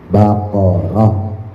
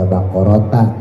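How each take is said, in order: First: The word ends with a soft h sound. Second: The word ends with a t sound and vowel. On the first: The speaker calls it right. "berubah jadi ha" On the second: The speaker calls it wrong. "tidak dibaca baqarota"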